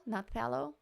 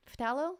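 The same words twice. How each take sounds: First: "Not phthalo?" as the alternative take; corrected pronunciation. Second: "Phthalo" tried with a rising question; testing out "Phthalo" as a query; questioning pronunciation. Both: Shown as a demonstration.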